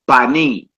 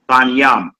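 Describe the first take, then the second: First: The word is said as Banim. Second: The word is said as Banyam. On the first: The speaker reads the word using the vowels. "you would say Banim" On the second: The speaker reads the word without using the vowels. "You hear brothers that don't use vowels, they say Banyam"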